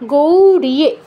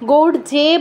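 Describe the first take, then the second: First: It is said 'gauriye' with an 'i' sound. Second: It is said 'gaur ye' with no 'i' sound. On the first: The speaker calls it right. "কি হবে?" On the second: The speaker calls it wrong. "গৌর যে বলা যাবে না"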